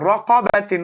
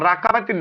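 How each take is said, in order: First: The first vowel is a rounded, heavy o. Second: The first vowel is an open, light a. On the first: The speaker calls it right. "দুটাই মুখটা গোল" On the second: The speaker calls it wrong. "রা বলবেন না কেউ, রাকাবাতিন না"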